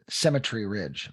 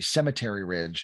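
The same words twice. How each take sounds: First: It is said with a British pronunciation. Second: It is said with an American pronunciation.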